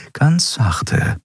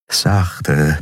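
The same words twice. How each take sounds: First: Ein Stück höher, sich selbst zur Ruhe mahnend; sich selbst ermahnend. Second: Said in the usual way. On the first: A narrator's reading. (höher, sich selbst gut zuredend) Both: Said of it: "befahl sie sich".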